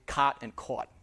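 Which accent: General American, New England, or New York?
New York. The two words have different vowels.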